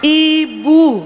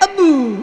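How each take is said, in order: First: The word begins with an 'ee' vowel. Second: The word begins with an 'eh' vowel. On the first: The speaker calls it right. "bukan ibu tapi ebu" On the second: The speaker calls it wrong. "Jangan bilang dek, ebu"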